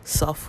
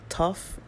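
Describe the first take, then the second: First: The word begins with an S sound. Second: The word begins with a T sound. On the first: "which is an S sound" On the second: "It's called a tough"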